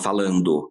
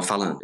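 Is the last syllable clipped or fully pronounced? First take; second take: full; clipped. First: Every syllable is fully and clearly articulated. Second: The final syllable is swallowed and clipped. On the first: The speaker calls it right. "você tem que falar falando" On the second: The speaker calls it wrong. "você comeu a sílaba da última palavra"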